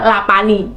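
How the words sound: The middle consonant is a p sound. This is how a Sundanese speaker would say it. The speaker calls it wrong.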